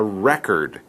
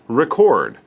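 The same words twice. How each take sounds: First: It is pronounced the way the noun is. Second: It is pronounced the way the verb is. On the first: It names the captured information itself. "It's the same spelling when it's a noun, but the pronunciation is different" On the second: It names the action of capturing information. "This is a verb"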